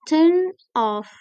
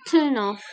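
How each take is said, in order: First: The two words are said separately. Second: The n carries over into the next word. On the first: The speaker calls it wrong. "bukan turn off" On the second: The speaker calls it right. "but turn off"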